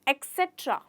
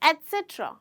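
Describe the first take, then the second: First: The word begins with an 'eks' sound. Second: The word begins with an 'et' sound. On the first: The speaker calls it wrong. "कई बार ऐसे लोग कहते हैं" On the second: The speaker calls it right. "एक्चुअल में इसका pronunciation है"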